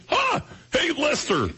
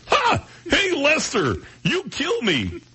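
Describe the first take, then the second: First: High, raspy alien puppet voice; squeaky alien puppet voice; Alf voice. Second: Raspy alien puppet voice; Alf voice. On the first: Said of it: "Lee reminded me". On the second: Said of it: "It doesn't sound right". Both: Retold or imitated.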